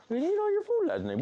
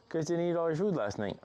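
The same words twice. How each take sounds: First: Very high, louder mock scolding. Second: Said in the usual way. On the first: Real, not acted. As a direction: playfully tell off the pets.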